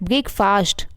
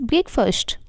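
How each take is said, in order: First: Breakfast with a long "faast"; full ah in the end of breakfast; mispronunciation. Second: Breakfast with a short "fust"; reduced vowel ending breakfast; correct pronunciation. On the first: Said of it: "not breakfast". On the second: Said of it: "it's breakfast". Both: Shown as a demonstration.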